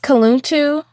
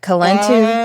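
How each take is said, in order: First: The name has a rounder 'ooh' vowel sound. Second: The name has a flatter, less rounded vowel sound. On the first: The speaker calls it right. "like a little bit more ooh" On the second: The speaker calls it wrong. "instead of like Kaluntu"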